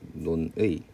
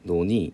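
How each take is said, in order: First: It is said slowly with the 'ui' vowel. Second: It is said quickly with a plain 'i' vowel.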